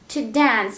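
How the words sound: It is said with an American accent. "American pronunciation"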